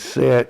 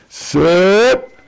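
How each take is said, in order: First: It is said in a weak, ordinary voice. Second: It is said in a commanding, diaphragm-supported voice.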